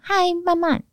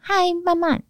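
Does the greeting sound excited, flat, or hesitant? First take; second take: excited; excited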